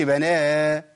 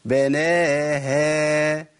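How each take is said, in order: First: بناها with the haa thickened; wrong reading of بناها; thick haa. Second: Very slow بناها with a light clear haa; correct light haa. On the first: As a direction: make the haa of بناها heavy. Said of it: "ما أقولش". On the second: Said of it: "سامعين صوت الهاء". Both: Shown as a demonstration.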